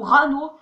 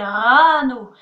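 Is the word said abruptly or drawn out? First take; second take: abrupt; drawn out. First: The word is said short and abrupt. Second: The word is said smooth and drawn out. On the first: The speaker calls it wrong. "on dit pas d'un seul coup rano" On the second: The speaker calls it right. "on fait rano"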